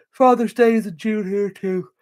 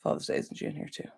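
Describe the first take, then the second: First: Slow, louder read-out for the audience; chat read aloud. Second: Whispered under her breath, reading to herself; murmured chat read. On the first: Streamer reading a viewer's comment out to chat, slow and clear. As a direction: announce the comment clearly to everyone. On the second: Streamer reading a viewer's chat comment, whispered. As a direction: mouth the comment quietly as you skim it. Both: Real, not acted.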